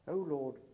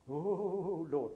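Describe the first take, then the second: First: It is said in a plain, routine way. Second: It is said with fervent, revivalist emotion.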